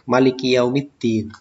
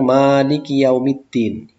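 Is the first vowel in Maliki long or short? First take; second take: short; long. First: The first vowel of Maliki is short. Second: The first vowel of Maliki is long. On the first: The King of the Day of Judgment. "dibaca pendek" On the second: The one who controls the Day of Judgment. "kalau dibaca panjang"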